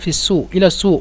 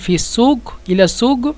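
First: The q is said as a glottal stop. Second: The q is said as a gh sound. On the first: "কফকে যদি হামজা বলি" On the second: "কফকে যদি গয়ন বলেন"

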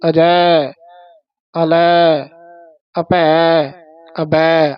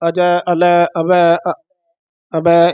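First: Small pauses separate each word. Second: The words run together without pauses. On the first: The speaker calls it right. "ਥੋੜੀ space ਦੇ ਕੇ" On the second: The speaker calls it wrong. "ਇਸ ਤਰ੍ਹਾਂ ਨਹੀਂ ਬੋਲਣਾ"

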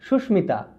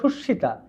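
First: The m sound is clearly pronounced. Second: The m is silent; the consonant is doubled. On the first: The speaker calls it right. "কিন্তু হবে সুস্মিতা" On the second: The speaker calls it wrong. "হওয়ার কথা ছিল সুস্মিতা"

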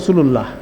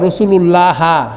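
First: The word ends on h with no vowel. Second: The word ends with a short a vowel. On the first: The speaker calls it right. "এটাকে আমরা থেমে বলি" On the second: The speaker calls it wrong. "এটার উচ্চারণ এভাবে হবে না"

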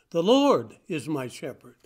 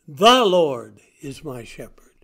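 First: The stress falls on the word 'my'. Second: The stress falls on the word 'The'. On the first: The Lord belongs to the speaker personally. "Not just any Lord, but my Lord" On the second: There is only one Lord, no other. "Not any Lord, not anybody. The Lord, the one and only"

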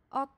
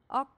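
No difference in how they are said.

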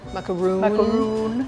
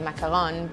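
First: The last syllable has a long 'oo' vowel. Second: The last syllable has no long 'oo' vowel. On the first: The speaker calls it wrong. "not with a double O, ooh, in a long macaroon" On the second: The speaker calls it right. "you probably would rather say macaron"

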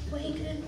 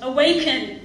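First: The word is said softly and mildly. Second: The word is cried out loudly. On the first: It lacks urgency. The speaker calls it wrong. "you don't just be like" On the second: It is an urgent emergency call. The speaker calls it right. "crying out to the church and crying out to the world"

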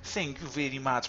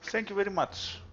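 First: It is said with a put-on Russian accent. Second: It is said in his ordinary accent.

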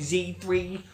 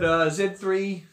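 First: Z3 is said with an American pronunciation. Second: Z3 is said with a non-American pronunciation. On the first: This is how some Americans say it. "I know some Americans say Z3" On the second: This is how the speaker says it. "but Z3"

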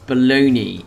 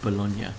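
First: It ends with a 'nee' sound, like baloney. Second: It ends with a 'nya' sound, like the city. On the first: This is the name of the sandwich meat. The speaker calls it right. "Bologna is how you pronounce that" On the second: This is the name of the Italian city. The speaker calls it wrong. "Not Bologna, which is what I instinctively want to say"

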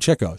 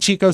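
First: The first syllable sounds like chick. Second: The first syllable sounds like cheek. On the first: This is how the brothers themselves said the name. "He got his name for chasing chicks" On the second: This is the common popular way of saying the name. "I grew up saying Chico"

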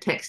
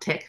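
First: The final consonants are clearly pronounced. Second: The final consonants are dropped. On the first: The speaker calls it right. "I've got to pronounce it properly" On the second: The speaker calls it wrong. "not tech"

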